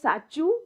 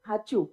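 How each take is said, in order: First: The word begins with an s sound. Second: The word begins with an h sound. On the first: This is the standard, respectable form. "the more like shushtu Gujarati, respectable ones, whatever, will say sachu" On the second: This is the everyday local form. "you say hachu"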